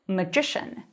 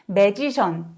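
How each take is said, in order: First: The stress is on the second syllable. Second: The stress is on the first syllable. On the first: The speaker calls it right. "강세가 이음절로도 바뀌어서" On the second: The speaker calls it wrong. "맨 앞에 강세를 주는 게 편안한 우리로서는 magician 이렇게 발음할 가능성이 너무 높아요"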